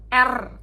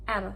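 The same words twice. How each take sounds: First: The R sound is full and round. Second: The R sound is light, soft and slightly lisped. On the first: The speaker calls it wrong. "Jadi dia tidak bulat R" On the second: The speaker calls it right. "versi lebih low ... kayak orang cadel gitu loh ngomongnya, tapi yang masih bergetar"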